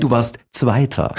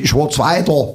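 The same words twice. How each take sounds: First: "warst Zweiter" with clean A vowels, slowly; standard German pronunciation. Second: "ich war Zweiter" as "isch wor Zweitor"; Saxon pronunciation. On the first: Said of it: "Nein, du warst Zweiter". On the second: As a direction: give "war" and "Zweiter" dark O vowels. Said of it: "es heißt doch nicht". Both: Shown as a demonstration.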